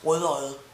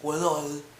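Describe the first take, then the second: Both takes have the same delivery.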